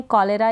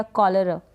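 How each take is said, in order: First: कॉलेरा with a full "le" in the middle; alternative pronunciation. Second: कॉलरा with a short, reduced middle vowel; first-taught pronunciation. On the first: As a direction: say कॉलेरा as "ko-lay-ra". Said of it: "कॉलेरा भी इसको pronounce कर देते हैं". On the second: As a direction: say कॉलरा as "ko-luh-ra". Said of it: "दोनों pronunciation ठीक है". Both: Shown as a demonstration.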